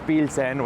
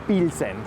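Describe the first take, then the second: First: The name is said with a Spanish accent. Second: The same.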